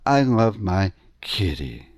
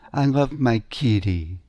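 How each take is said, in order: First: Kitty lands on the speaker's home note. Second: Kitty lands a musical fifth above home. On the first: "That's the home note of the key of my voice" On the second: "Some people go to the musical fifth"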